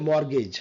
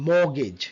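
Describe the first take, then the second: First: MORTGAGE with the r sounded; common mistaken pronunciation. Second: MORTGAGE with silent r and t; British pronunciation. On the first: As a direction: say mortgage as "mor-gej". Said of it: "আমরা অনেকে mortgage". (mortgage-এর র উচ্চারণ করে "মরগেজ") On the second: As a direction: say mortgage as British "maw-gej". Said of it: "mortgage in a British sound". (mortgage-এর র ও ট ছাড়া British "মোগেজ") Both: Shown as a demonstration.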